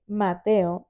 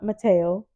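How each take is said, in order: First: The name is said with a Spanish-style pronunciation. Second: The name is said with an English-style pronunciation. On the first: The speaker calls it right. "It's Mateo" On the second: The speaker calls it wrong. "It's not Mateo"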